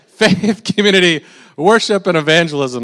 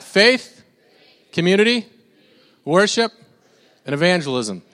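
First: It is said in a deep Darth Vader voice. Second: It is said in his normal voice.

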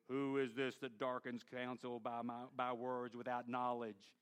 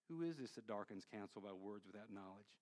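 First: It is spoken in a harsh, booming tone. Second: It is spoken in a gentle, quiet tone. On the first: The speaker is rebuking the listener. "I like to embellish it" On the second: The speaker is tenderly asking the listener to listen. "Could God have said it this way?"

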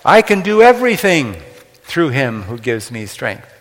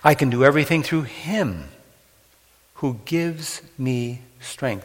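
First: The word "everything" carries the main stress. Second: The word "him" carries the main stress. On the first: The person can accomplish anything at all. The speaker calls it wrong. "the word everything is emphasized" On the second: The strength to endure comes from the Lord. The speaker calls it right. "the verse 13 should be read emphasizing the word him"

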